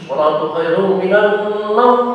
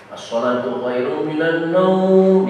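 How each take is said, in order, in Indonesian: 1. Vokal pada kata terakhir dibaca pendek. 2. Vokal pada kata terakhir dibaca panjang. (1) "tidak ada panjang sama sekali"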